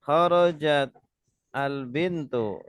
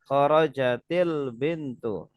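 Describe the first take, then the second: First: The words are said without a linking vowel. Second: An i vowel links kharajat to the next word.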